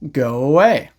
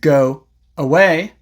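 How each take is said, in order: First: A small w sound links the words. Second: The words are separated by a break. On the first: "connect them with a small W sound" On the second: "Instead of saying"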